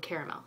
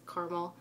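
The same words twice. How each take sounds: First: "caramel" said "care-a-mel"; "caramel" with all three syllables. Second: "caramel" said "car-mel"; "caramel" squeezed into two syllables. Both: Shown as a demonstration. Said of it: "two different words".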